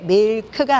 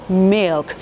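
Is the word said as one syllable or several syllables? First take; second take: several syllables; one syllable. First: The word is split into several separate syllables. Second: The word is said as one short syllable. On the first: The speaker calls it wrong. "왜 밀크가 아니고" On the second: The speaker calls it right. "milk 이렇게 되는지"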